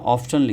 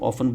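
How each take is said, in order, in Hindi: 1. शब्द t ध्वनि के साथ बोला जाता है। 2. शब्द बिना t ध्वनि के बोला जाता है। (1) "अदरवाइज लिखा क्या है, ऑफ्टन लिखा है" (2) "ऑफन में टी जो है साइलेंट होता है"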